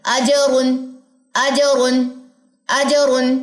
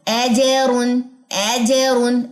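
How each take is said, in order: First: अजरुन with an open अ, not ए; अजरुन, open अ, crisp ज; corrected reading. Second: एजरुन with अ flattened to ए; demonstrated mistake. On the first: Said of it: "एज नहीं, अज". (सुधार कर, अजरुन खुले अ के साथ) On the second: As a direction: say एजरुन, opening vowel like ए. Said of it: "अगर नहीं लग रहा तो कैसे साउंड". (गलती दिखाते हुए, एजरुन) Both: Shown as a demonstration.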